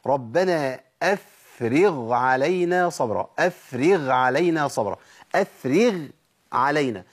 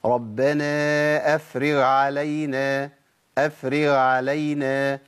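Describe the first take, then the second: First: Slow chant, أفرغ and علينا kept distinct; correct ghayn recitation. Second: Slow chant, أفرغ losing its final ghayn; swallowed ghayn demo. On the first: Teacher recites ghayn beside ayn, both letters distinct. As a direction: sound the full ghayn of أفرغ before علينا. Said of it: "العين هقول إيه؟". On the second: Teacher shows the mistake, ghayn eaten by the ayn. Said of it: "آكل الغين وأضغمها في العين". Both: Shown as a demonstration.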